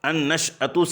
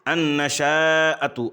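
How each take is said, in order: First: No vowel follows the sh sound. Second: A long a vowel follows the sh sound. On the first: "यहाँ पर शीन पर जज़्म है" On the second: "शीन के फ़तहा और उसके बाद अलिफ ... मद्दे मुत्तसिल के साथ"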